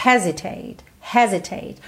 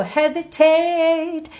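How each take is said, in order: First: "hesitate" stressed on HE, falling after; first-syllable stress. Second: "hesitate" higher, with TATE stretched out; lengthened final syllable. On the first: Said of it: "a sílaba tônica dessa palavra é a primeira". ("hesitate" com tônica na primeira sílaba) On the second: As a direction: grow the last syllable of "hesitate" as in the song. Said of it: "Esse tate acabou crescendo". ("hesitate" com o "tate" crescido, como na música) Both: Shown as a demonstration.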